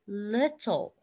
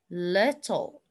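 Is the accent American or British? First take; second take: British; British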